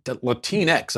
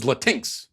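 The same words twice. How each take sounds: First: Put-on "Latinx" said "la-TEEN-ex", stress on TEEN; her pronunciation. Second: "Latinx" said as "Latin-ex", like Latin plus X; his pronunciation. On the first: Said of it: "I think is how she pronounced it". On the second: Shown as a demonstration. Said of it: "So I thought it was Latinx".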